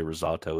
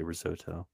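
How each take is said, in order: First: "risotto" with an open AH, riz-AH-toe; other Americans' pronunciation. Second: "risotto" with OH in the middle, riz-OH-toe; own American pronunciation. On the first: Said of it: "other Americans say risotto as well". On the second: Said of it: "I just say risotto". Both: Shown as a demonstration.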